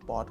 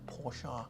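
First: The name is said as one syllable. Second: The name is said as two syllables. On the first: The speaker calls it wrong. "ถ้าเกิดผมพูดปอร์ชคนบางคนก็จะหงุดหงิดนะ" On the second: The speaker calls it right. "ต้องโพชา"

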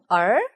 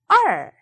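First: The pitch rises like a question. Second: The pitch falls sharply and quickly. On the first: "이성" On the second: "사성"

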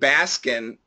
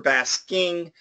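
First: The word ends without a final g sound. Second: The word ends with a clear ng sound. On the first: "saying Baskin is actually a typical standard pronunciation" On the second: "I prefer basking"

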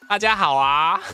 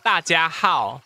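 First: Every syllable is said with a rising pitch. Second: Every syllable is said with a falling pitch. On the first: "二声是往上的嘛，就是说" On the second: "大家四声的话就是"

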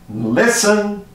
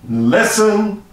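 The two takes are said the same way.

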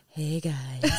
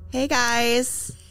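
First: It is said in a flat, usual way. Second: It is said in a perky, upbeat way.

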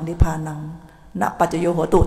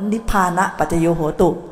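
First: It is split as nipphanang, then na paccayo. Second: It is split as nipphana, then paccayo. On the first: The speaker calls it wrong. "ตัวเองพูดอย่างนี้" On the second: The speaker calls it right. "แต่ต้อง"

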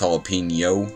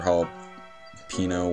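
First: The middle consonant is an ny sound. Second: The middle consonant is a plain n sound. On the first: The speaker calls it right. "it's jalapeno. Kind of like puts a Y after it" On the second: The speaker calls it wrong. "instead of like jalapeno or jalapeno"

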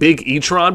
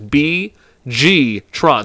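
First: The name begins with the word big. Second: The name begins with two separate letters. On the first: The speaker calls it wrong. "Not big, because I was saying Big E-tron before" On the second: The speaker calls it right. "So this is how it's supposed to be"

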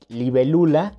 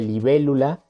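First: The stress is on the third syllable. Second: The stress is on the second syllable. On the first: The poet's altered form. "convierte dos palabras esdrújulas en palabras graves" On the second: The usual form. "en lugar de"

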